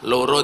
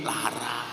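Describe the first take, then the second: First: The vowels are said as O, Purworejo style. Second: The vowels are said as A, Kebumen style.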